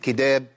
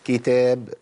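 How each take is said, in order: First: The middle consonant is voiced, sounding like d. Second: The middle consonant is a faint breathy t. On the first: The speaker calls it wrong. "لو قلت كداب ومنعت الهمس كده بقت دال" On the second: The speaker calls it right. "شوف بس الهمس هنا ضعيف جدا مش باين"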